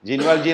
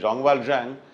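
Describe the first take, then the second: First: The name is said with English sounds. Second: The name is said with French sounds. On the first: "ജീൻവാൽജി എന്നാണ് നമ്മൾ ഇംഗ്ലീഷിൽ വായിക്കുമെങ്കിൽ" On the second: "French ഉച്ചാരണം ഴാങ് എന്നായതുകൊണ്ട്"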